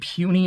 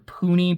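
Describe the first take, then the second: First: The first syllable sounds like 'pew'. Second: The first syllable sounds like 'poo'. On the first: "I don't know if it's supposed to be puny or poony" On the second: "Poony is more how it's spelled"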